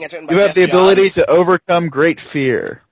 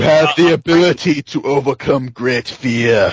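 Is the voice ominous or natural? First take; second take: natural; ominous. First: It is said in a plain, natural voice. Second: It is said in an ominous, dramatic voice. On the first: The speaker calls it right. "Say it like a human being" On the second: The speaker calls it wrong. "Don't say it like an ominous voice"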